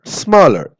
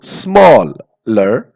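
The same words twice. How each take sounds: First: Said in the usual way. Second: smaller stretched slowly, each sound drawn out; drawn-out word. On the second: Shown as a demonstration. Teacher drawing out smaller slowly for students. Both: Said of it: "देखो".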